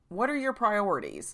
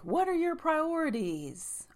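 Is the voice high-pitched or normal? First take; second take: normal; high-pitched. First: It is said in her normal voice. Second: It is said in a high-pitched voice.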